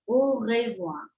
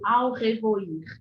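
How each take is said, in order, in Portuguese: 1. A primeira vogal é um único som de 'o'. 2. A primeira vogal é pronunciada como 'a-u'. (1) "O sonzinho de A e U no francês é O" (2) "Não ao revoir ou ao revoir. De jeito nenhum"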